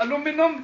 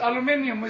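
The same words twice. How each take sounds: First: Aluminum imitated American way, a-LOO-mi-num, four syllables; aluminum questioned, a-LOO-mi-num. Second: Aluminium said British way, al-yoo-MIN-ee-um, five syllables; aluminium the English way, al-yoo-MIN-ee-um. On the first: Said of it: "Did you say aluminum?". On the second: Shown as a demonstration. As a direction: say aluminium with the extra i, stress on MIN. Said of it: "you English want to add and take away letters".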